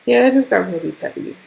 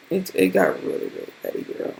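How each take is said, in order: First: Said in the usual way. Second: Much lower, near-silent whisper; hushed, lower whisper; whispered lament. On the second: Real, not acted. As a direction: drop to a breathy whisper. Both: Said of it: "repeated lament".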